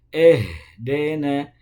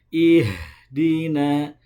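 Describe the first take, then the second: First: The vowels are pronounced as an e. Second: The vowels are pronounced as a clear i. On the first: The speaker calls it wrong. "bukan eh" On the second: The speaker calls it right. "bukan e tapi i"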